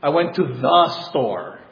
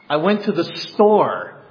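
First: The word the is stressed. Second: The word store is stressed. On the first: It was the intended store. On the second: It was the store, not the park.

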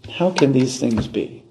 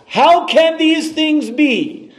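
First: It is said in a cynical, doubting tone. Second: It is said forcefully and emphatically.

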